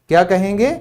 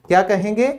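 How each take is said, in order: Both takes have the same delivery.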